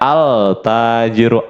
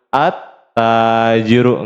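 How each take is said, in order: First: The l is clearly pronounced before the t. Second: The l merges into a doubled t sound. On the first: The speaker calls it wrong. "Enggak boleh kita bacanya al-tajiru" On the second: The speaker calls it right. "maka dibacanya at-tajiru"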